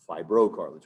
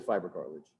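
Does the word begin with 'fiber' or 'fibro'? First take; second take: fibro; fiber. First: It is said as one word, starting 'fibro'. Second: It is said as two words, starting 'fiber'. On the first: The speaker calls it right. "It's fibrocartilage, one word" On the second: The speaker calls it wrong. "Don't say fiber cartilage"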